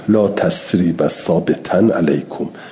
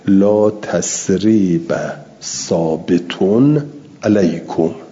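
First: The adjective ends with an 'an' sound. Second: The adjective ends with an 'un' sound. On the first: The adjective is in the accusative position. "اون ثابت در محل نصب باشه" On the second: The adjective is in the nominative position. "در محل رفع است"

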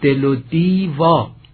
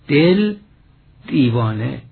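First: A linking vowel is added after 'del'. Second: No vowel is added after 'del'. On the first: The speaker calls it right. "یعنی یه هجا به وزن اضافه کنیم" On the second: The speaker calls it wrong. "اما بی هیچ تردیدی ملودی فرو می ریزد"

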